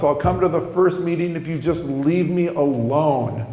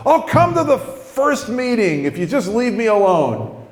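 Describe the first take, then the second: First: Restrained, emphatic repeat of a promise; measured but exasperated concession; grudging promise. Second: High, exasperated burst; blurted outburst. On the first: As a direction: confirm it firmly, without shouting. Repeats the promise, more controlled. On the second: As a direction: let it fly out before you can stop it. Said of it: "come flying out of my mouth". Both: Retold or imitated.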